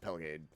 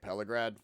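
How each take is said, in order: First: The name is said without an r sound. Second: The name is said with an r sound. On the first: The speaker calls it right. "It is just Pelgade" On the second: The speaker calls it wrong. "I was pronouncing it Pelagrad"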